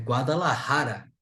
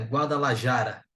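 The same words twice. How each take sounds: First: The j is a harsh r-like throat sound. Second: The j is a soft Portuguese-style j sound. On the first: The speaker calls it right. "é Guadalajara" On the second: The speaker calls it wrong. "essa palavra aqui não é Guadalajara"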